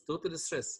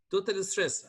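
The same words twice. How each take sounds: First: Said in the usual way. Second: "Total stress" said higher and louder, falling at the end. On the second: Shown as a demonstration. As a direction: punch "Total stress" for the class.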